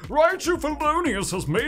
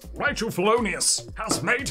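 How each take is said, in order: First: It is said in a big, put-on voice. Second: It is said in the speaker's ordinary voice.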